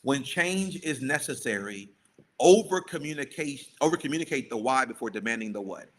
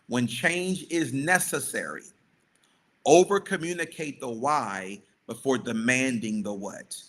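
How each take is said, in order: First: It is said at a normal pace. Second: It is said slowly and deliberately.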